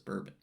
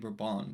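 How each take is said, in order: First: It is pronounced the American English way. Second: It is pronounced the French way. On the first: "though we pronounce it as Bourbon" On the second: "Note the name Bourbon"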